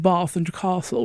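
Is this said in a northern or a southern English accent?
southern. It is said in a posh southern English accent. This is the way considered proper. "which is this, the proper way to speak"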